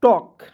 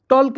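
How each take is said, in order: First: टॉक with a silent l, "tawk"; टॉक as the right reading, l dropped; correct pronunciation. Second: टॉल्क with the l sounded, "tolk"; टॉल्क as a mistaken reading with an audible l; wrong pronunciation. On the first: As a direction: say टॉक with no l sound. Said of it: "क्या पढ़ेंगे दोस्तों?". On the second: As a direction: say टॉल्क pronouncing the silent l. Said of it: "टॉल्क नहीं पढ़ेंगे". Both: Shown as a demonstration.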